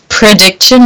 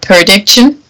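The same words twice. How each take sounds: First: The word begins with a clear 'pre' sound. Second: The word begins with a 'per' sound. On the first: The speaker calls it right. "it's prediction" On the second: The speaker calls it wrong. "not prediction. You're way too deep in Perdita land here"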